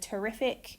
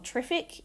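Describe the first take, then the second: First: The first vowel is full and clear. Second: The first vowel is reduced and weak. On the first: "instead of" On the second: "Vowel reduction"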